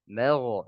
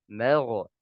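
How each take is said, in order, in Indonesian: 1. Bunyi gh berakhir dengan lepasan yang memantul. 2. Bunyi gh berakhir dengan lepasan yang memantul.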